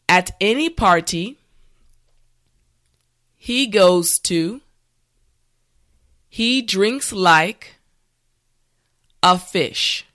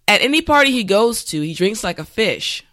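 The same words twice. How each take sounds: First: The sentence is said slowly and carefully. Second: The sentence is said at natural speed. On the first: "this time repeat after me" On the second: "this time we will go at a more natural pace"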